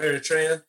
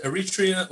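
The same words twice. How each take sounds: First: Eritrea said "air-ih-TRAY-uh"; stressed "tray" in Eritrea; pronunciation with "ay". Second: Eritrea said "eh-rih-TREE-uh"; stressed "tree" in Eritrea; pronunciation with "ee". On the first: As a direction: say Eritrea with an ay sound. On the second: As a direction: say Eritrea with a long ee. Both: Shown as a demonstration. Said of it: "people either pronounce it".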